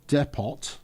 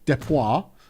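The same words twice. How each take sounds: First: It is pronounced the plain English way. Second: It is pronounced the French way. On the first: The speaker calls it wrong. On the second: The speaker calls it right.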